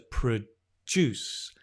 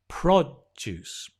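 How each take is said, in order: First: The stress is on the second syllable. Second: The stress is on the first syllable. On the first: It is the verb. "the verb to produce" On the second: It is the noun. "the noun has the stress on the o"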